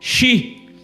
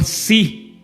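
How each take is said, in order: First: The syllable begins with an 'sh' sound. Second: The syllable begins with an 's' sound. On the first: This is the pronunciation the test demanded. The speaker calls it right. "Fala então Shibolete" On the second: This pronunciation revealed the speaker as a foreigner. The speaker calls it wrong. "eles falavam si"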